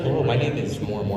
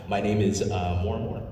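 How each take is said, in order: First: It is said with high, hyped energy. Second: It is said with low energy.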